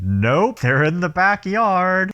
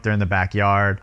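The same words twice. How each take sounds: First: Slow, higher, offhand; higher mock-casual Rick Moranis. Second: Said in the usual way. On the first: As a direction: breezily tell the cops where the kids are. Rick casually answering the cops. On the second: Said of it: "the kids are shrunk".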